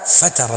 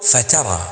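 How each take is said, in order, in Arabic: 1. مقطع التاء غير منبور. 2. مقطع التاء منبور. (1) "لا فترى القوم فتورا فترت" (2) "قل فترى وادفع بحرف التاء هنا"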